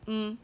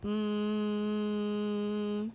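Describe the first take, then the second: First: "Mm" as a short hum; fast sound. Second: "Mm" as one long level hum; slow sound. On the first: Teacher answers "say it fast", "Mm" said very short. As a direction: cut "Mm" short and quick. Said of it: "Say it fast". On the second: Teacher models a sound for children, "Mm" held long. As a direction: hold "Mm" steadily without a break. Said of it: "say a sound slowly". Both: Shown as a demonstration.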